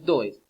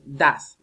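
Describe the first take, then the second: First: The vowel is read as spelled, like 'oh'. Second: The vowel is a short open 'ah' sound. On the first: The speaker calls it wrong. "no es does" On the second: The speaker calls it right. "Miren cómo se pronuncia. Das"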